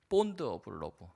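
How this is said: It is said with a strong Korean accent. "너무 김치 발음으로 했나요?"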